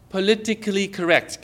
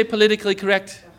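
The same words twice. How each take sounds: First: Measured, careful delivery of "politically correct"; deliberately enunciated. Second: Said in the usual way. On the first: Shown as a demonstration. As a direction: sound out "politically correct" for the crowd. Sounding out phrase for congregation.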